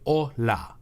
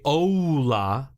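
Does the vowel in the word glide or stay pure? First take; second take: pure; glide. First: The o stays one pure vowel, Spanish-style. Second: The o glides into an oo sound, English-style. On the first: The speaker calls it right. "You get rid of the oo sound and you get hola" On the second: It sounds like an English speaker. The speaker calls it wrong. "it adds that English accent immediately"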